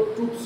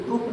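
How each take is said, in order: First: ट्रूप्स with a final s; plural ट्रूप्स. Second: ट्रूप ending on p, no s; singular ट्रूप. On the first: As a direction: end ट्रूप्स on a clear ps. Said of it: "उसको ट्रूप्स बोला जाता है". (ट्रूप्स, आख़िर में स के साथ) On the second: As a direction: say ट्रूप without the final s. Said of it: "ट्रूप नहीं बोला जाता". (ट्रूप, आख़िर में स के बिना) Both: Shown as a demonstration.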